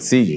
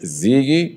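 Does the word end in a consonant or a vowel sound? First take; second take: consonant; vowel. First: The word ends abruptly on the consonant. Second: The word ends with an added vowel sound. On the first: This is how it is said in Spanish. "aquí en español es solamente el Ziggy, ¿no? Se corta" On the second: This is how it is said in Portuguese. "Allá es Ziggy"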